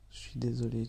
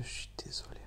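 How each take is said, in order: First: Said in the usual way. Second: Barely voiced whisper; whispered sorry. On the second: Real, not acted. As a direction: drop to a whisper on the apology. Excuse droit dans les yeux. (excuse chuchotée tout bas)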